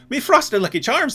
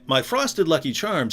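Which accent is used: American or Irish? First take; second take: Irish; American. First: It is spoken in an Irish accent. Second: It is spoken in an American accent. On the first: "The Irish person would say" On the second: "an American would say"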